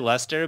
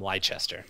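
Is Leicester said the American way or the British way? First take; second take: British; American. First: It is said the British way, as two syllables. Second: It is said the American way, sounding every letter. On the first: "you can say Leicester" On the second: "all the people in the US would call them Leicester"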